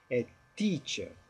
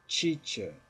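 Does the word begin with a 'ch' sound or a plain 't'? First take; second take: t; ch. First: The first sound is a plain t. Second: The first sound is said like ch. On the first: The speaker calls it right. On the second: The speaker calls it wrong. "pronunciar o T como ch ... não, está errado"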